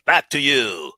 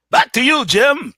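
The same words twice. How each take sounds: First: Much lower, rounded newsreader tone; deep anchor voice. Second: Higher and louder, bright anchor sign-off; news anchor handoff. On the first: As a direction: drop the pitch into a serious broadcast voice. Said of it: "non-regional voice". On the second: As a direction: toss it back to the studio like a TV anchor. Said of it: "talk like that in the commercials and in the news". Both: Shown as a demonstration.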